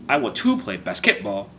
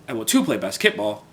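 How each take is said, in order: The two takes are said the same way.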